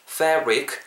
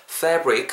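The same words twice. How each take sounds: The two takes are said the same way.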